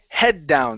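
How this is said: The stress falls on the word head. The speaker calls it right. "So stress head"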